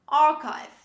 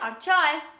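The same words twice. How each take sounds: First: The middle is said with a k sound. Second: The middle is said with a ch sound. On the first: The speaker calls it right. "This is archive" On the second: The speaker calls it wrong. "Don't say archive"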